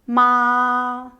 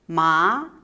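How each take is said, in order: First: The pitch stays high and level. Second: The pitch rises from middle to high. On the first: "Tone one, / It's a high level tone" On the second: "Tone two, / It's a raising tone"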